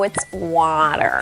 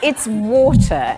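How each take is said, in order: First: Water is said with an American accent. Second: Water is said with a British accent.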